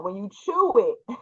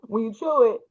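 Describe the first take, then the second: First: Said in the usual way. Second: Laughing through the words; giggling while quoting. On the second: Retold or imitated. Repeat breaks into laughter.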